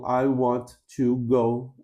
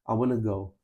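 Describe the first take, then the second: First: Want and to are said as separate words. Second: Want and to are blended into wanna. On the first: "treina a pronúncia da palavra ... de forma separada" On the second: "falantes nativos juntam tudo"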